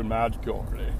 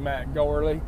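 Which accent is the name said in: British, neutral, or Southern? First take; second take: British; Southern. First: The name is said in a posh British accent. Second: The name is said in a Southern American drawl. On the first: "you have to be certified or classified to say Matt Gourley. How are you, old chap?" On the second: "I'm from the South, so I say Matt Gourley"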